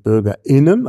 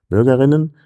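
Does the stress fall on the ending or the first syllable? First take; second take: ending; first syllable. First: The stress is on the ending, after a glottal stop. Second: The stress is on the first syllable. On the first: It is the gender-inclusive form for all citizens. "also Akzent nach hinten und eben dieser glottale Verschlusslaut" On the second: It refers to female citizens only. "bei den weiblichen Vertretern"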